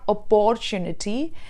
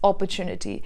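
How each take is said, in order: First: The sounds carry a native-language accent. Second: The sounds follow standard English pronunciation. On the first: The speaker calls it wrong. "It's not opportunity, where you may have that mother tongue interference" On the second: The speaker calls it right. "but it's opportunity"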